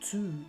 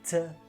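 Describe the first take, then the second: First: The word has a full vowel. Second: The word has a reduced weak vowel. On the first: The speaker calls it wrong. "E não é to" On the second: The speaker calls it right. "Vocês vão reparar que ele fala"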